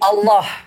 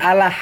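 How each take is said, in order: First: The first vowel sounds like an O. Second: The first vowel sounds like a plain A. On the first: The speaker calls it right. "seolah-olah A itu eh, bersuara O" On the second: The speaker calls it wrong. "bukan Allah"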